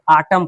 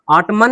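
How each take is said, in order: First: ऑटम ending on m, lower; silent n. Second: ऑटमन with an extra n after m; n wrongly sounded. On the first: Teacher giving students the right reading, ऑटम without n. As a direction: say ऑटम as "autumn", closing on m with no n. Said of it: "ऑटम पढ़ेंगे". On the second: Teacher warning students off the mistake, ऑटमन with audible n. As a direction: say ऑटमन, voicing the silent final n. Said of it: "ऑटमन नहीं पढ़ेंगे". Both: Shown as a demonstration.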